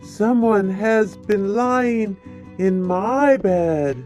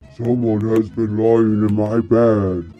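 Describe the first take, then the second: First: It is said in a middle-sized bear's voice. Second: It is said in a big bear's voice.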